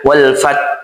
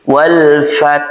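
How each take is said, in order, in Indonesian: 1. Huruf h di akhir tidak terdengar hembusan napas. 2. Huruf h di akhir terdengar hembusan napas yang mengalir. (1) "tidak mengeluarkan angin saat melafazkan huruf hanya" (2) "pastikan ketika kita membaca ini mengalir"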